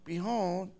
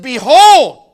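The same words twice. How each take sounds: First: It is said quietly, without raising the voice. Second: It is said loudly, with a raised voice.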